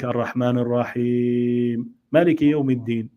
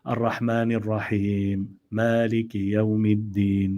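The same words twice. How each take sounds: First: The pause elongations are held different lengths. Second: Both pause elongations are held the same length. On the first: The speaker calls it wrong. "Not like" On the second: The speaker calls it right. "you make them equal"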